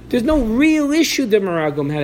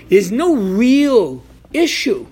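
First: Said in the usual way. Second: There's no real issue, drawn out slow and a bit louder, every word weighted; slow emphatic statement. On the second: Shown as a demonstration. Teacher stressing the point to students, in a slow, weighty delivery. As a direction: lean on no and draw the line out. Repeated key point of lesson.

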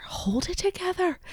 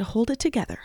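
First: Very high, soft squeak of self-command; pep yourself up in a tiny high voice; high self-coaxing. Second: Self-coaxing. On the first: Host telling herself not to cry, squeaky self-coaxing. Repeats it, pitched far up. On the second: Telling herself not to cry. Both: Real, not acted.

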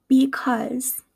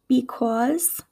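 First: "because" with an "uh" vowel; Midwestern pronunciation. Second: "because" with a rounded "cawz" ending; East Coast pronunciation. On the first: Teacher contrasting accents, "because" said Midwestern as "bee-cuzz". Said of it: "in my Midwestern accent". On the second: Teacher contrasting accents, "because" said East Coast as "bee-cawz". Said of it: "in an East Coast accent". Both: Shown as a demonstration.

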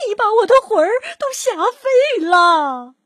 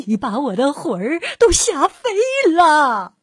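First: Higher, louder mock-terrified cry; old woman crying out she's scared to death; hammed-up fright. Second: Mock fright. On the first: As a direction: play the scared old lady big. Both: A narrator's reading. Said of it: "瘦小的老妇人喊起来".

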